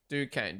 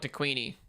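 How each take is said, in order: First: The name ends without an added 'ee' sound. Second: The name ends with an added 'ee' sound. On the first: The speaker calls it right. "Oh, Duquesne. Okay" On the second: The speaker calls it wrong. "I know I'm pronouncing it wrong. It's not DeQueenie"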